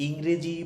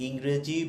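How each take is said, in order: No difference in how they are said.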